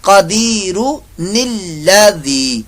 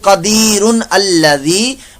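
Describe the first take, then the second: First: The n sound joins the next word with 'i'. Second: The n sound joins the next word with 'a'. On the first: The speaker calls it right. "तो ये बना कदीरु निल्लज़ी" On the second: The speaker calls it wrong. "ऐसे नहीं पढ़ेंगे"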